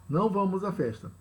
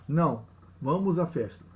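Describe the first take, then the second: First: "Não vamos à festa" run together, quick, no break after "Não"; no pause, one phrase. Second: "Não," set apart by a clear pause, then "vamos à festa" as a statement; pause after Não. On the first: Teacher demonstrating no comma: "Não vamos" run straight on. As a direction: say it in one breath as a denial. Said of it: "e pela ausência da pontuação". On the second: Teacher demonstrating the comma: pause after "Não,". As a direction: break after "Não," so the rest affirms going. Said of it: "Observe a diferença provocada pela presença". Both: Shown as a demonstration.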